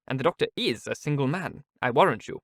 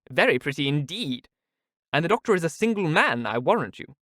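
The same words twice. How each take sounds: First: Said in the usual way. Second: Higher, knowing teasing tone; Mrs Jennings, teasing. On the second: Acted. Mrs Jennings teases Miss Steele, higher. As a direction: tease her about the doctor. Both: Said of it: "cried Missus Jennings".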